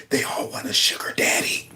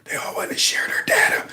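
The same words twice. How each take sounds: First: Soft whispered mishearing; breathy joke whisper of the misheard line; quiet whispered imitation; mock whisper. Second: Soft unvoiced imitation of the whisper; hushed imitating whisper; mock whisper. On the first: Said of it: "Sound like he said". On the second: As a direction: whisper it like the creepy clip. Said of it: "What did he say?".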